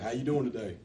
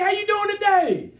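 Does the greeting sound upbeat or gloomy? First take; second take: gloomy; upbeat. First: It is said flatly, like after a funeral. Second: It is said brightly with the voice raised.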